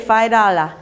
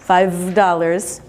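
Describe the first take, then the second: First: The final consonant sounds are dropped. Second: The final consonant sounds are said clearly. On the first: The speaker calls it wrong. "we're not going to say" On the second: The speaker calls it right. "Good final consonant sounds"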